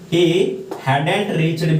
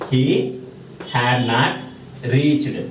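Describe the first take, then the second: First: Had not is contracted into one word. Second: Had not is said as two full words. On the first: "హ్యాడ్ నాట్ని contract చేస్తే వచ్చేది ఏంటంటే హ్యాడెంట్" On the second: "హ్యాడ్కి బదులుగా హ్యాడ్ నాట్"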